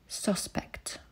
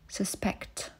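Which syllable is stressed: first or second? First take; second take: first; second. First: The stress is on the first syllable. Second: The stress is on the second syllable. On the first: It is used as a noun. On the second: It is used as a verb.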